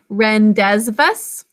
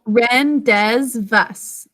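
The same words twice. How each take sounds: First: Rendezvous said slowly, every letter sounded, ending in a hard s; spelling pronunciation. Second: Rendezvous drawn out very slowly, every letter sounded; spelling pronunciation. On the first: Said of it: "Can you say the think to spell?". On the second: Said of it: "That's how we're gonna think to spell this". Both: Shown as a demonstration.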